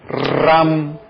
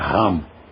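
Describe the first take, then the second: First: The r is rolled with the tongue tip. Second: The r is made in the back of the throat. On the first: The speaker calls it right. "é o R do sânscrito, que é o mesmo R do italiano" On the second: The speaker calls it wrong. "em que pronuncia com R francês, vamos prestar atenção que não é"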